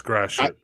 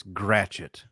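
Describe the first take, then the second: First: Gratiot said as GRASH-ut, two syllables; local pronunciation. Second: Gratiot said as GRAT-shit, southern style; southern pronunciation. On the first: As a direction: Gratiot as a Detroiter says it, GRASH-it. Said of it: "No, it's Gratiot". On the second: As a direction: say Gratiot like GRAT-chit, two syllables. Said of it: "That's my southern accent". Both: Shown as a demonstration.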